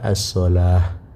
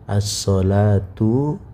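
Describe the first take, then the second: First: The word ends with a soft 'h' sound. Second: The word ends with a full 'tu' syllable. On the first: The reader stops on the word. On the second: The word is read without stopping on it.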